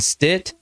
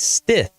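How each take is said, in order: First: The name ends with a t sound. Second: The name ends with a th sound. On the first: The speaker calls it wrong. "I've heard ... Stit" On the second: The speaker calls it right. "but it's Stith, just like it's spelled"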